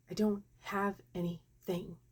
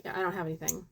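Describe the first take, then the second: First: Spaced-out word by word "I don't have anything"; slow repeat. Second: Said in the usual way. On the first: Retold or imitated. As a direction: draw out "I don't have anything", pausing between words. Nurse repeats when asked what.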